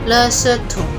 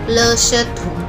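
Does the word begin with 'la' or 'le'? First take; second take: le; le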